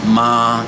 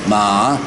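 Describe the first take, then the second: First: The pitch stays high and level. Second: The pitch rises from middle to high. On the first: "the first tone so so" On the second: "mi so second tone"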